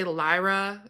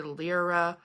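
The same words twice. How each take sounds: First: "Lyra" as LIE-ruh; first pronunciation variant. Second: "Lyra" as LEER-uh; second pronunciation variant. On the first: Showing viewers how some people say it, "Lyra" as LIE-ruh. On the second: Showing viewers how others say it, "Lyra" as LEER-uh. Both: Shown as a demonstration. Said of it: "people say Lyra and people say Lyra".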